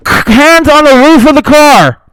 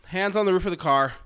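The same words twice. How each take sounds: First: Loud, high, slow barked command; cop shouting orders. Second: Said in the usual way. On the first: Retold or imitated. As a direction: drag each word out like a furious officer.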